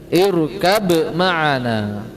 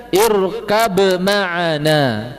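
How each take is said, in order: The two takes are said the same way.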